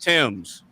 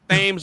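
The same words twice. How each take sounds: First: The word begins with a plain 't' sound. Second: The word begins with a 'th' sound. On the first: The speaker calls it right. "it's pronounced Thames" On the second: The speaker calls it wrong. "I used to pronounce it Thames River"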